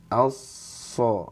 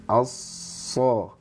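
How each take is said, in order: The two takes are said the same way.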